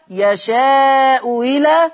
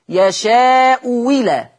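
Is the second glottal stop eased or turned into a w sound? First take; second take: eased; w sound. First: The second glottal stop is softened, eased. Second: The second glottal stop becomes a w sound. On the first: "ورش يا إما يسهلها فتبقى يشاء إلى" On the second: "يا إما يبدلها واو"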